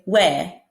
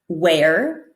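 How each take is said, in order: First: The final R is dropped, only the vowel. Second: The final R sound is pronounced softly. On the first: "they'll say where" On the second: "instead of saying where"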